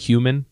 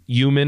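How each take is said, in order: First: The whole word is said fully. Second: Part of the word is left out. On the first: This is the usual pronunciation. "instead of human" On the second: This is how a parent pronounces it. "she just takes out portions"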